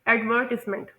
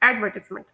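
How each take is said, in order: First: It is said with British English word stress. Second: It is said with American English word stress. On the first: "British English में ... इस तरह से pronounce किया जाता है" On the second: "American English में यही word pronounce किया जाता है"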